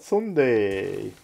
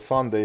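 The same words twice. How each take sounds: First: It is said with an exaggerated Hungarian accent. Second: It is said in a plain English way. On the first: "ő meg ugye túlzásba viszi, és úgy paralizálja" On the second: "a Sunday helyett"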